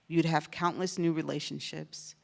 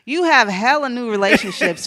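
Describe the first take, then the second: First: It is said in a plain, even reading voice. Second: It is said with slangy, funky swagger.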